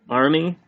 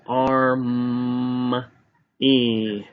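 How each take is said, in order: First: Said in the usual way. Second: Arm and E separated and drawn out; tapped-out sounds. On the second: Shown as a demonstration. Teacher tapping out army's syllables, segmented. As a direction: hold the m in Arm, then a long E. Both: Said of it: "That's tap".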